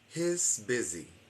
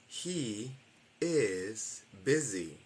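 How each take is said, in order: First: He and is merge into one short syllable. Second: He and is are two separate full words.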